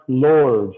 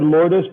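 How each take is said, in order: First: The name sounds just like 'lords'. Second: The name does not sound like 'lords'. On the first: The speaker calls it right. "it's pronounced Lords, like the Lords" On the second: The speaker calls it wrong. "I said Lourdes"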